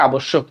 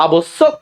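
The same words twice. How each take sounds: First: আবশ্যক said 'a-bosh-shok'; 'sh' sound in আবশ্যক. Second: আবশ্যক said slowly as 'a-bos-sok'; 's' sound in আবশ্যক. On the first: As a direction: say আবশ্যক with a hushing doubled sh. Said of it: "S H এর মতো উচ্চারণ". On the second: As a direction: say আবশ্যক with a thin doubled s. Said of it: "স উচ্চারণ হচ্ছে নাকি স উচ্চারণ". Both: Shown as a demonstration.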